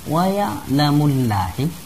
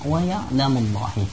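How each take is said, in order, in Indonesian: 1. Bunyi L pada Allah terdengar tipis dan ringan. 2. Bunyi L pada Allah terdengar tebal dan berat. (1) "tidak dibaca" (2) "harus dibaca ... dibaca tafkhim atau tebal"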